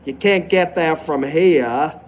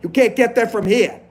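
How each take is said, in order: First: It is spoken in a Maine accent. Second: It is spoken in a New York accent. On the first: "So in Maine, they say stuff like" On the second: "And New York, they say, hey"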